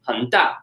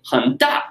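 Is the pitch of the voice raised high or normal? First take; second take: normal; raised high. First: The pitch stays at a normal level. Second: The pitch is pushed up high for emphasis. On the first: Something is plainly said to be big. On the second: Something is emphasized as very big.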